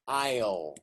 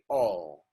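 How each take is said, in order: First: The vowel is a full 'eye' sound. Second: The vowel is reduced to an 'aw' sound. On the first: "This is pronounced I'll" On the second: "when you're speaking fast, you say all"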